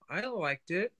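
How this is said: It sounds hesitant and unsure. The speaker is not sure they liked it.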